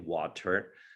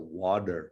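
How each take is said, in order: First: The middle consonant is a clear T sound. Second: The middle consonant is a soft D sound. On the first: "we Americans we pronounce the T. ... I try to say water" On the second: "pronounce it with the D sometimes, right? A D sound"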